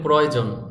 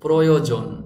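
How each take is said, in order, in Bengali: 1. শব্দটি সহজ, সাধারণ ভঙ্গিতে উচ্চারণ করা হয়েছে। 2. শব্দটি সাবধানে ও নির্ভুলভাবে উচ্চারণ করা হয়েছে। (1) "আমরা অনেকে বলি প্রয়োজন, প্রয়োজন বললে হবে না" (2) "শব্দটি সুন্দর করে উচ্চারণ করতে হলে আপনাকে এভাবে বলতে হবে"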